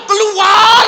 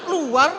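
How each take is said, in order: First: Very loud, high drawn-out scream; exorcism scream. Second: Higher but weakened mock command; spent exorcist. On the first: Retold or imitated. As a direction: scream the demon out with everything. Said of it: "teriak-teriak gitu". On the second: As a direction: try to shout on leftover strength. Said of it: "tinggal sisa-sisa apa saya".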